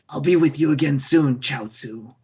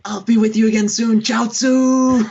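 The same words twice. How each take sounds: First: The name Chaozu is said plainly, without extra force. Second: The name Chaozu is said with strong emphasis.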